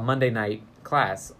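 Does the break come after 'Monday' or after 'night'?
after night. Monday night is grouped together before class. It is a class held on Monday night. "a class on Monday night"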